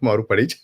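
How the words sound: The name is said with a Western pronunciation. "in the Western world, yeah, that's uh"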